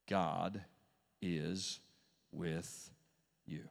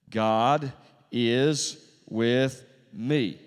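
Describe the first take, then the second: First: Low, soft, one word at a time; solemn reminder. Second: Loud declaration, each word drawn out; congregational declaration. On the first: Real, not acted. Preacher reminds the congregation of God's presence, solemn and slow. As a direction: set each word down quietly, with a pause after it. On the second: Shown as a demonstration. Preacher leads the congregation in saying it, slow loud declaration. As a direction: proclaim it word by word for all to repeat. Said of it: "Would you sit with me?".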